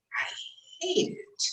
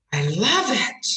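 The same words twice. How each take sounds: First: Demonstrated contempt, much softer; acted loathing. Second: Adore it, stretching "love"; demonstrated delighted emphasis; gushing love. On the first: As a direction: spit disgust softly on "hate". Demonstrates hate after love. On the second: Demonstrates love versus hate. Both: Shown as a demonstration.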